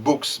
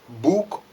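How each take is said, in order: First: The name ends with an s sound. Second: The name ends without an s sound. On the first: The speaker calls it wrong. "I pronounced his uh, surname wrongly" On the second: The speaker calls it right. "the final S is not read"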